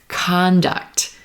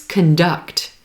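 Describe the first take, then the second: First: The stress is on the first syllable. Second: The stress is on the second syllable. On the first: "olive sock conduct" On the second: "If we shift the stress"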